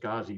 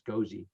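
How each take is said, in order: First: The first vowel sounds like 'ah'. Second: The first vowel sounds like 'oh'. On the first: The speaker calls it wrong. "I always thought it was Ghazi" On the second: The speaker calls it right. "but it's Gozi"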